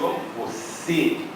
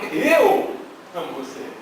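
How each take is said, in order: First: The word você is stressed. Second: The word eu is stressed. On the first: It is this person that is loved. "eu estou querendo destacar que é você a pessoa que eu amo" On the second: It is me who loves, not others. "negrito no eu, fica um pouco egocêntrico"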